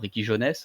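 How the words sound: The name is said with French pronunciation.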